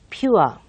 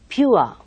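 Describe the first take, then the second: First: The vowel glides from 'oo' toward 'uh'. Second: The same.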